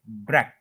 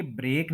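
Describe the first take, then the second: First: ब्रेक as "brek", short "e"; correct short vowel. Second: ब्रेक as "brake", long "ay"; common mispronunciation. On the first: Teacher correcting learners, careful pronunciation. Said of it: "इसको हम बोलेंगे ब्रेक". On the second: Teacher showing what not to say, mispronounced. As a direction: lengthen the vowel of ब्रेक. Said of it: "ये ब्रेक नहीं बोलेंगे हम". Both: Shown as a demonstration.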